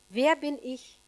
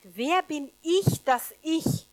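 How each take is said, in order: First: Said in the usual way. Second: Slow, louder, with both "ich" leaned on and rising; slow, self-doubting question hammering "ich"; stress on ich. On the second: Shown as a demonstration. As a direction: drag out "Wer bin ich, dass ich?" and press hard on each "ich". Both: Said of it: "Merkt ihr so diese Betonung?".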